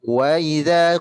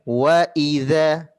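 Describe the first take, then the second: First: The glottal stop before idza is weak and soft. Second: The glottal stop before idza is crisp and firm. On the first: The speaker calls it wrong. "Kalau Bunda tadi kedengarannya bilang" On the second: The speaker calls it right. "Hamzahnya itu ada sifat syiddah dengan jaharnya"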